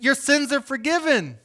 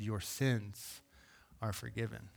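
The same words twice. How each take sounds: First: High and loud, proclaiming; bold declaration. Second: Soft and low, almost hushed; gentle declaration. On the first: Jesus proclaiming forgiveness over the man, loud and high. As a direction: announce it boldly to the whole room. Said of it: "He's like". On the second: God's grace speaking to the lame man, softly. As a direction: let it fall softly, like grace arriving. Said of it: "God's grace met him in that moment and said". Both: Retold or imitated.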